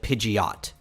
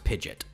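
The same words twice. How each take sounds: First: It sounds like Pidgeotto without the final vowel. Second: It sounds like the word pigeon ending in T. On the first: The speaker calls it wrong. "the anime calls it Pidgeot, which I get because it sounds like it goes into the same uh, naming convention as the other ones" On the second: The speaker calls it right. "It's pronounced Pidgeot. It's even spelt like pigeon, but with a T at the end"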